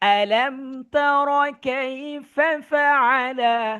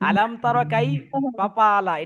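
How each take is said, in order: First: The f sounds are pronounced as f. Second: The f sounds are pronounced as p. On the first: The speaker calls it right. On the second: The speaker calls it wrong.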